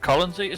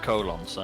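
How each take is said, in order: First: The first part is reduced and run together. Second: The first part sounds like the word 'colon'. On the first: The speaker calls it right. "I think it's uh, Co- Colonsy" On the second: The speaker calls it wrong. "it's definitely not colon. Say"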